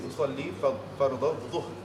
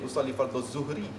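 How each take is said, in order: First: The last word starts with a heavy dh sound. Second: The last word starts with a plain z sound. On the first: The speaker calls it right. "Dia jadi" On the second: The speaker calls it wrong. "bukan jadi ... itu zain"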